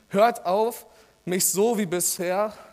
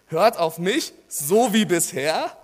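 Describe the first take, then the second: First: The phrase breaks right after the word auf. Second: The phrase breaks right after the word mich. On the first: It tells the listeners to stop doing something. The speaker calls it wrong. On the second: It tells the listeners to keep listening to the speaker. The speaker calls it right.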